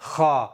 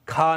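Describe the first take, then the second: First: The kh sound is made deep in the throat. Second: The kh sound is made further forward. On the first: The speaker calls it right. "सही क्या है" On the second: The speaker calls it wrong. "खा नहीं कहेंगे, खा गलत है"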